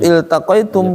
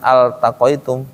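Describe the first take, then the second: First: The word begins with an 'i' vowel. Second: The word begins with an 'a' vowel. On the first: The speaker calls it right. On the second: The speaker calls it wrong.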